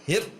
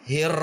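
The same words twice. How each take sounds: First: The ra is jerked out with a sharp push. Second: The ra is held with a stopped sound. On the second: "ditahan namanya"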